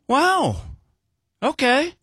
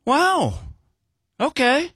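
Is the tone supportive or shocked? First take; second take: supportive; supportive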